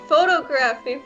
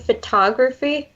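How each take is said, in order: First: The stress is on the first syllable. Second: The stress is on the second syllable. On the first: The speaker calls it wrong. "I thought it was pronounced photography for like the longest" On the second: The speaker calls it right. "You mean photography?"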